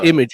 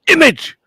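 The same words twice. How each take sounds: First: The word is said flatly, without exclamation. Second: The word is exclaimed with loud, excited energy. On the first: The speaker calls it wrong. "it's not" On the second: The speaker calls it right. "There's an exclamation mark after image"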